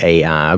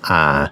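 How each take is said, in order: First: The name is said as two syllables, ay-eye. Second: The name is said as one syllable, eye. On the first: The speaker calls it wrong. "a lot of times we pronounce it A I" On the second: The speaker calls it right. "the correct pronunciation is I"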